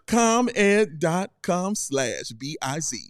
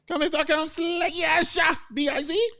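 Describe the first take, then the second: First: It is said more slowly. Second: It is said at normal speed.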